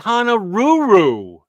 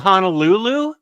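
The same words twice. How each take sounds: First: It is said in an exaggerated, mocking accent. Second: It is said in a plain, ordinary way. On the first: The speaker calls it wrong. "he'd call it Honolulu like completely making fun of the accent" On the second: The speaker calls it right. "instead of saying Honolulu"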